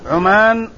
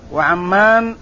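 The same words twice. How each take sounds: First: عمان with short u and one m, long aa; Oman pronunciation. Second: وعمان as wa-ʕam-MAAN, doubled m; Amman pronunciation. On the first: Teacher placing the tribe of Azd, عمان said ʕumaan with short u. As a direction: say عمان as ʕu-MAAN. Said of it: "بضم العين وفتح الميم الممدودة". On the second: Teacher naming the town of Balqa, وعمان said wa-ʕammaan with doubled m. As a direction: give وعمان an a after ayn and hold the m. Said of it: "بفتح العين وتشديد الميم الممدودة". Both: Shown as a demonstration.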